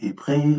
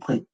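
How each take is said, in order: First: A vowel comes before and after the consonants. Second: The vowel comes only after both consonants. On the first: "ou épré" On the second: "ou pré"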